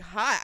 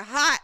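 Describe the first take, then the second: First: Questioning repeat of an unfamiliar word; puzzled echo. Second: HOT said high and loud; emphatic confirmation. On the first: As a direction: echo it back as if unsure what it means. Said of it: "He probably doesn't know what that means". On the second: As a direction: hit HOT hard as a confident answer. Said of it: "I said". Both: Retold or imitated.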